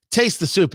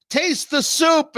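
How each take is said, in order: First: Said in the usual way. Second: Insistent. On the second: Acted. Man insists again, slower.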